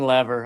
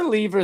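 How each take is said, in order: First: The name is said the American way. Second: The name is said the British way. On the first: The speaker calls it wrong. "than Lever" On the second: The speaker calls it right. "I prefer Lever"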